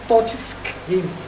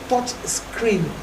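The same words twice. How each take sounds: First: The second word is said as 'skin'. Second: The second word is said as 'screen'. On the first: The speaker calls it wrong. "not touch skin" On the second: The speaker calls it right. "It's touch screen"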